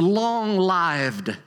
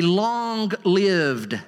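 First: "long-lived" with a long i, as in "life". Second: "long-lived" with a short i, as in "give". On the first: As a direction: stretch "long-lived" slowly, rhyming "lived" with "arrived". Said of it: "I'm gonna change the emphasis of, of the vowel". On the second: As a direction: stretch "long-lived" slowly, rhyming "lived" with "sieved". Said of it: "change the emphasis of, of the vowel". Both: Shown as a demonstration.

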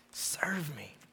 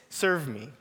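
First: A whispered serve me, no voice at all; barely breathed, the word "Serve" unvoiced and soft. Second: Said in the usual way. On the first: Shown as a demonstration. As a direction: breathe "Serve me." as a hushed inner call. The phrase repeated in a hush.

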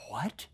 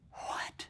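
First: Soft, rising in disbelief; quiet disbelieving question; incredulous what. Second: Breathless whisper of disbelief; whispered what. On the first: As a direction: ask it as if you misheard. Preacher reacts to Pharisees' claim. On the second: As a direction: drop to a stunned whisper. Preacher repeats the word, whispered. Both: Shown as a demonstration.

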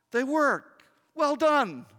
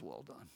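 First: Dad's praise. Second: Much lower, much softer hushed praise; hushed, tender, nearly silent Well done. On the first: Dad praising the son. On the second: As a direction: breathe it like a father holding his child. The Father's whisper of praise. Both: Retold or imitated.

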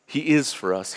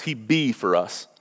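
First: Said in the usual way. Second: "He be for us" said slowly, leaning on "be"; slow it down and land on "be"; playful folksy "He be for us"; deliberate bad grammar. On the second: Shown as a demonstration. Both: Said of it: "I know it's bad English".

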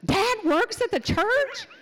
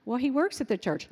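First: High, loud, laughing disbelief; be stunned by old news; imitating a son's big surprise; amazed question. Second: Said in the usual way. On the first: Son amazed to hear it.

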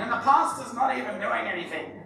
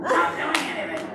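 First: Lightly put-on whiny complaint, with a laugh; mock grumble as a congregant, half laughing; Trish voice. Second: Higher, hammed-up complaining voice; Trish voice. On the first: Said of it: "I sounded like you then, Trish". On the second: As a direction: overdo the whiny grumble for a laugh. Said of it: "my Trish voice came on".

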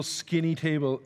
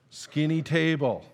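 First: Said in the usual way. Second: "skinny table" drawn out slowly; slow, deliberate weight on "skinny table"; emphatic repeat. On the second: Shown as a demonstration. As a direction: stretch out both words of "skinny table". Corrects himself, repeats for emphasis.

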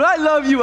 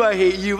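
First: High, loud fake-loving greeting; sugary mock affection, pitched up; churchy sweetness. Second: Dropped-pitch aside under a greeting; comic undercutting aside; mock hidden hatred. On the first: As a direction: gush it with put-on church cheer. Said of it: "We put on that churchy face". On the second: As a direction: drop the fake cheer and mean it, comically.

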